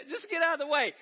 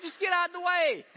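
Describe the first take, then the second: First: Laughing through the line, still high; laughing repeat. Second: Much higher, louder exasperated yell; mock road rage. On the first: Retold or imitated. Preacher repeating the road rage, laughing at himself. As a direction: say it again, cracking up. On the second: Driver yelling at a car blocking the lane, loud and higher.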